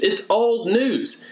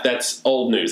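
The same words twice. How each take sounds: First: Put-on "old" drawn out slow and higher, falling; stress on old. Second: Said in the usual way. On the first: Shown as a demonstration. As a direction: say "It's old news" slowly, leaning on "old".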